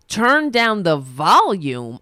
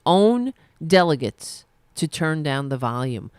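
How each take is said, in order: First: Incredulous repeat. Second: Said in the usual way. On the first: Real, not acted. Scoffing at the article's demand.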